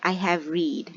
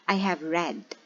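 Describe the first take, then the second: First: Read is not said like the color red. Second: Read is said like the color red. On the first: The speaker calls it wrong. "So we don't say I have read" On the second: The speaker calls it right. "we again say read, like the color"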